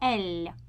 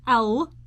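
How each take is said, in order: First: The L is pronounced very softly. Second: The L is pronounced hard and firm. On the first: The speaker calls it right. "I want to make L soft. Make it as soft as possible" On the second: The speaker calls it wrong. "Not L"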